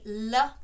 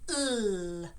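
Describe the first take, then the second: First: The sound ends with an added uh vowel. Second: The sound is held pure with no vowel. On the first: The speaker calls it wrong. "sometimes people might say L, but we don't" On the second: The speaker calls it right. "We say L"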